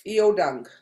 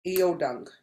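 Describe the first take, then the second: First: "Iodang" given as a louder classroom order; firm command. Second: Said in the usual way. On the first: Shown as a demonstration. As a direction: tell the class to sit with "Iodang". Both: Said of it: "I would be going like this".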